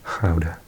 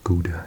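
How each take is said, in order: First: It is said with a Dutch pronunciation. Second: It is said with an English pronunciation.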